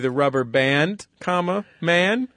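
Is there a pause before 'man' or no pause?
pause. There is a pause before 'man'. They will see a rubber band, and 'man' is just a form of address. "because he does put a pause in there"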